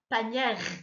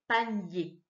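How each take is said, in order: First: The final R is pronounced after an open vowel. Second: The word ends in a vowel, no R heard. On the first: The speaker calls it wrong. "Il ne fait pas panière" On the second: The speaker calls it right. "le R, on ne l'entend pas"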